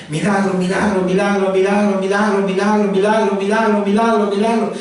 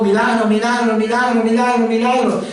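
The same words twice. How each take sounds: First: Insistent nonstop chant on a level pitch; trance-like prayer. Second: Rising, urgent trance chant on a higher pitch; raised voice. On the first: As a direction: chant it over and over without a break. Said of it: "entra como en un trance". (rezo insistente, como en trance) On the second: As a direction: lift the repeated plea higher, more insistent. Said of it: "Y empieza a alzar la voz". (alzando la voz en rezo insistente) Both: Acted.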